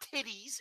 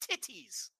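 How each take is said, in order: First: The middle consonant sounds like a soft D. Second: The middle consonant is a clear T. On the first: The speaker calls it wrong. "Not titties with the D" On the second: The speaker calls it right. "just put the T's back in titties"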